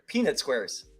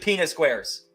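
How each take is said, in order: First: The words are enunciated with a clear final T. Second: The words are slurred and the T is dropped. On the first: The speaker calls it right. "That's better" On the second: The speaker calls it wrong. "You gotta enunciate"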